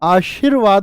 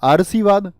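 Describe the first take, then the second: First: The r sound comes right after the second syllable. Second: The r sound comes right after the first syllable. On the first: The speaker calls it right. "आशीर्वाद होता है" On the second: The speaker calls it wrong. "इसकी ध्वनि गई कहां पर? से से पहले"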